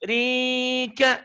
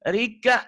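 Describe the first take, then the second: First: The name is said with drawn-out, lengthened vowels. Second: The name is said plainly with short vowels. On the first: "sama aja kan, cuma seni doang" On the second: "biasa aja kan"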